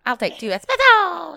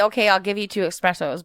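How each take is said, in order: First: Perky raised order; higher, louder ordering voice. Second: Said in the usual way. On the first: Retold or imitated. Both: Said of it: "They tell me".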